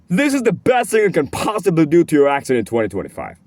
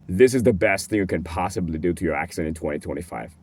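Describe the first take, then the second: First: It is lively, with varied pitch and more energy. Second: It stays on a low, flat pitch throughout. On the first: The speaker calls it right. "it has more passion, it has more aggression, it's more convincing" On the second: The speaker calls it wrong. "if you just talk with a low pitch the whole way through"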